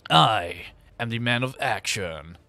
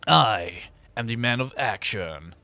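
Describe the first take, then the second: First: It is said in a Duke Nukem voice. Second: The same.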